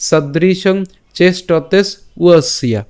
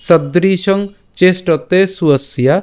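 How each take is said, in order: First: Slow "সদৃশং", then "চেষ্টতে" closed on s, pause, "উয়সিয়া"; split pronunciation. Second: Slow recitation with "সুয়সিয়া" as one word; joined pronunciation. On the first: Teacher offering the alternative, slow with separate "উয়সিয়া". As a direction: detach "উয়সিয়া" from the word before. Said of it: "অথবা". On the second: Teacher repeating the line for learners, slow joined "সুয়সিয়া". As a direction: draw it out, s leading "সুয়সিয়া". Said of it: "তা আমি আবার বলছি". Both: Shown as a demonstration.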